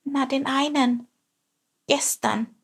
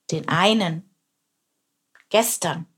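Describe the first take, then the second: First: Small, high, startled voice; scared little sparrow squeak; frightened peep. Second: Mildly roared echo; roaring. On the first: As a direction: peep it timidly, pitched up. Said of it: "piepste Chilp erschrocken". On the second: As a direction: growl the words back as a lion. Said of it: "brüllte er". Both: A narrator's reading.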